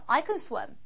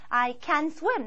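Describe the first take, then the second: First: The word can is reduced and weak. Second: The word can is said fully and clearly. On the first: The speaker calls it right. "편하게 얘기할 때 줄여서 얘기합니다" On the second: The speaker calls it wrong. "이렇게 하지 않고요"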